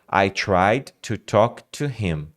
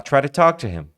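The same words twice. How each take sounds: First: Each word is said separately and clearly. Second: The words run together quickly with reductions. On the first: This is what the learner expects to hear. "você está esperando" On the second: This is how a native speaker actually says it. "E aí o cara fala"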